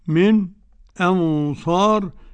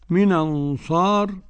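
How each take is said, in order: First: A brief silent pause comes before the vowel. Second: The n runs straight into the next vowel. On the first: "والسكت" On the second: "النقل"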